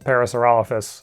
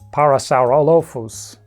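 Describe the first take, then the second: First: The opening 'para' has the speaker's usual English sound. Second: The opening 'para' is said the way it is in Latin. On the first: "at least the way you say it with my accent" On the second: "which I think is correct Latin"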